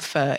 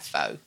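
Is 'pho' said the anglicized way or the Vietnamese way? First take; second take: Vietnamese; anglicized. First: The word is said with a Vietnamese-style pronunciation. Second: The word is said with an anglicized pronunciation. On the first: The speaker calls it right. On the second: The speaker calls it wrong.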